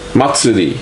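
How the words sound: It is said with a Japanese accent. The speaker calls it right. "you just said it like a Japanese person"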